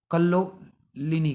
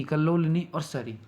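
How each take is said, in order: First: Slow spelled-out word. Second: Said in the usual way. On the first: Shown as a demonstration. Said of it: "निम्नगा बोलते हैं और तिरणी बोलते हैं और". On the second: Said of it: "ठीक है, कल्लोलिनी और सरी।".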